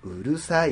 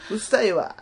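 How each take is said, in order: First: Put-on cute standard girl. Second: Put-on cute Kansai girl. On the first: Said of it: "って言われたらやっぱ可愛いね". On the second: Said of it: "可愛い声で言われても".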